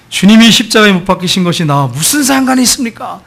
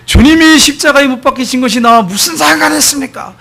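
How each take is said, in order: First: Said in the usual way. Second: High, raised cry in imitation; imitated loud, high-pitched outcry; loud shouting. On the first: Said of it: "이걸 외치라는 거예요". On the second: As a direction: shout it out as a defiant challenge. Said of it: "이 친구가 큰 소리로".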